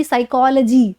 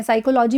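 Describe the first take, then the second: First: "साइकोलॉजी" as sai-KOL-uh-jee; reduced -logy. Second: "साइकोलॉजी" wrongly as sai-ko-LO-jee; full LO-JEE ending. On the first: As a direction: shrink the ending of "साइकोलॉजी" to uh-jee. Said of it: "लॉजी ना होके लजी हो जाती है". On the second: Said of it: "साइकोलॉजी भी नहीं". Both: Shown as a demonstration.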